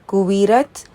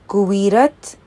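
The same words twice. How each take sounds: The two takes are said the same way.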